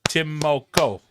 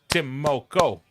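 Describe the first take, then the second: No difference in how they are said.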